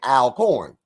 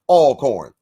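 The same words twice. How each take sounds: First: The first syllable sounds like 'al'. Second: The first syllable sounds like 'all'. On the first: The speaker calls it wrong. "you don't say Al Always. So why would you say Alcorn?" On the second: The speaker calls it right. "So it's Alcorn"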